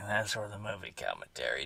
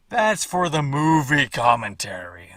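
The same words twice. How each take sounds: First: Much softer, muttered under his breath; quiet repeat. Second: Said in the usual way. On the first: Shown as a demonstration. Repeating the commentary aside to viewers, much softer. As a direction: drop to a hushed aside.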